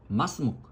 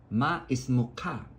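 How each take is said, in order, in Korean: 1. 단어들이 이어서 나오고, 끝소리는 짧게 끊깁니다. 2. 단어들을 따로따로, 끝까지 다 발음합니다.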